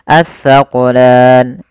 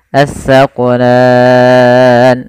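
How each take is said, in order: First: The long vowel is held for two counts. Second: The long vowel is held for six counts. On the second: "enam harokat"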